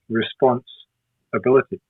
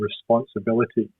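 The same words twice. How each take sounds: First: The word is split by a pause. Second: The word is said smoothly without a pause.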